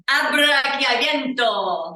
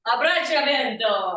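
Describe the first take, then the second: First: Abrachiavento with a hard k sound in the middle; mispronounced Abrachiavento, "brak-ya" in the middle; botched pronunciation. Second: Careful echo of Abbracciavento, stressing "ven"; corrected pronunciation. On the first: Real, not acted. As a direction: belt out Abrachiavento, mangling the chia as "kya". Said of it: "That was a terrible sound accent". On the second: Shown as a demonstration. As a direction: repeat Abbracciavento after the model, "bra-cha" not "brak-ya". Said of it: "tell me how to say it".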